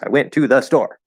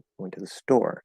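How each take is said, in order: First: It is said angrily with very strong stress. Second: It is said calmly with normal focus stress.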